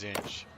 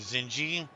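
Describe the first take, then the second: First: The name ends on a consonant, no vowel. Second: The name ends with an added vowel sound. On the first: The speaker calls it right. "It's Zinj" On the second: The speaker calls it wrong. "Some people pronounce it Zinji. That's not the way to pronounce it"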